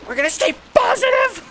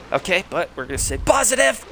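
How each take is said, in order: First: Much higher, louder shout of forced optimism; shrieked forced cheer. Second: Rattled forced cheer. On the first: Gamer yells at himself after nearly dying, a shrieking shout. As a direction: scream the positivity through the panic. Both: Real, not acted. Nearly killed by level twenty.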